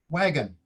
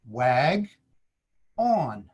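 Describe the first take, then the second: First: The second vowel is a weak 'uh' sound. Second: The second vowel is a full 'ah' sound. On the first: The speaker calls it right. "the schwa sound uh" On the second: The speaker calls it wrong. "does not pronounce the short O sound ah, as in on"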